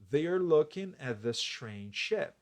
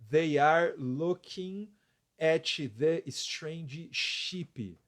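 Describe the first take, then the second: First: The words are pronounced with a native-like accent. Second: The words are sounded out with a heavy accent. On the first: The reader knows how the words sound. The speaker calls it right. "você ouve a pronúncia correta" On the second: The reader is guessing how the words sound. The speaker calls it wrong. "Estaria bem, bem ruim a pronúncia"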